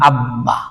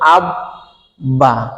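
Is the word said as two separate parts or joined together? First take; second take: joined; separate. First: It is joined with a doubled b sound. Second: It is split into two separate syllables.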